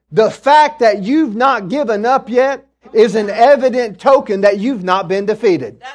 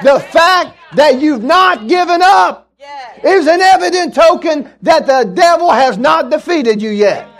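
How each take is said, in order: First: Said in the usual way. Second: High, loud, triumphant shout; full-force preaching shout. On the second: Real, not acted. Preacher repeating his point to the congregation, shouted in triumph. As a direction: shout it out to rouse the church.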